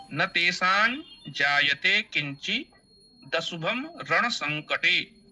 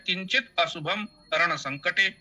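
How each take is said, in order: First: Slow measured chant, final t of किंचि carried into दशुभम; joined metrical recitation. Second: किंचित and अशुभम said as two separate words; words separated for meaning. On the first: Teacher showing how to recite as written, joined metrical reading. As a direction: recite slowly with short किंचि, linking into दशुभम. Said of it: "वैसा ही उसे पढ़ना चाहिए". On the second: Teacher explaining the meaning, words split apart. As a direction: end किंचित on t, then begin अशुभम afresh. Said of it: "ये तरीका ठीक है". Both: Shown as a demonstration.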